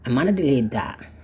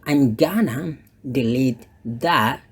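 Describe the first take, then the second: First: The g sound in gonna is dropped. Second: The g sound in gonna is pronounced. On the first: "si bule tadi dia bilang ... Dia tidak ucapkan bunyi G-nya" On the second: "that's correct"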